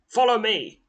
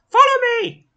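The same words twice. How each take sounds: First: It is said in his normal voice. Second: It is said in a put-on character voice.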